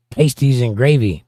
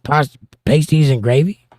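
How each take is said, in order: First: Said in the usual way. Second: "pasties and gravy?" asked back with a rise on "pasties"; double-take on "pasties"; re-reading the chat in disbelief; puzzled reread. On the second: Shown as a demonstration.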